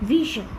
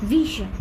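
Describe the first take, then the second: The two takes are said the same way.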